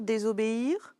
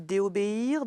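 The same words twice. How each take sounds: First: "désobéir" with a clear z sound before o, rising; "désobéir", dé-zo linked smoothly; right form. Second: "déobéir" said dé-o with no linking sound, rising; questioning "déobéir", vowels kept apart; wrong form. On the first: Teacher gives the pupil the right "désobéir", rising question. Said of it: "On dit désobéir". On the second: Teacher tests the pupil with wrong "déobéir", rising question. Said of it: "Est-ce qu'on dit". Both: Shown as a demonstration.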